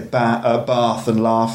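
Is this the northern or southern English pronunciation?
southern. It is said in a southern English accent. "People in the south say"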